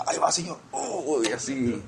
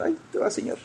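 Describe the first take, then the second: First: A hint of pleased offering; happy crown-tosser. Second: Much higher, softer put-on voice; crown-tosser's voice. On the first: Acting believers with big crowns offering them to the Lord, mildly happy. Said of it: "bien contentos". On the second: Acting believers with tiny crowns tossing them to the Lord, high small voice. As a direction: lightly call out in a small, high voice. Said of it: "se la van a tirar así al Señor".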